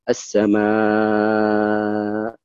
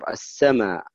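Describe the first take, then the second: First: The final long vowel is held very long. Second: The final long vowel is held briefly. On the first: "ولك الطول" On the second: "ويقصر يعني لك القصر"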